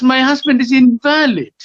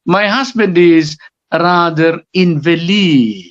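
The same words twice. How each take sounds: First: "invalid" said as in-VAL-id, high pitched; stress on second syllable. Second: "invalid" said as in-vuh-LEED, long final syllable; stress shift in invalid. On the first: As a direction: punch VAL in "invalid", meaning not valid. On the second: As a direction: stretch LEED at the end of "invalid", meaning sickly. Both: Shown as a demonstration. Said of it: "there is a shift of stress".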